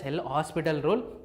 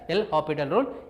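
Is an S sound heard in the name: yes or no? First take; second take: yes; no. First: The name is said with an S sound. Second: The name is said without an S sound. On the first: The speaker calls it wrong. "some people read it as L'Hospital rule" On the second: The speaker calls it right. "You have to read it as L'Hopital rule. S is silent"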